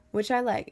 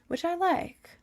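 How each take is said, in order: First: Said in the usual way. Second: High, cutesy squeak; squeaky high voice. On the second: Pretend. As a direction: squeak it out playfully. Repeats the phrase in a squeaky voice.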